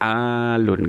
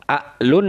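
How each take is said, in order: First: The first vowel is drawn out long, unbroken. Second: A glottal catch follows the short first vowel. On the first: The speaker calls it right. "jadinya alun gitu ya" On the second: The speaker calls it wrong. "kan nggak enak"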